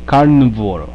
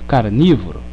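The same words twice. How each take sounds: First: No vowel is heard after carn. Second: An i vowel is heard after carn. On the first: The speaker calls it wrong. "Se eu não tivesse o i, seria carnívoro" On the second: The speaker calls it right. "botaram o i ali"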